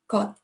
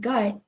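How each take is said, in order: First: The word is said short and clipped. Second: The word is said loosely and drawn out. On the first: The speaker calls it right. "it's more straight on, right there, right on" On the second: The speaker calls it wrong. "It's not gut"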